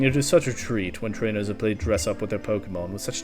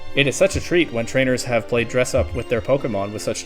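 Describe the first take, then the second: First: It is read in a pompous old man's voice. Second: It is read in a flat robotic voice. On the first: "it's like old rich guy voice" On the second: "there's the robot voice again"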